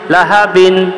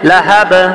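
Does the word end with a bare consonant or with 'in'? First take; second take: in; bare consonant. First: The word ends with an added -in sound. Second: The word ends on a bare b sound. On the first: The reading continues without stopping. "বা দুই জের বিন" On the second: The reader stops on this word. "অফ করলে লাহাব"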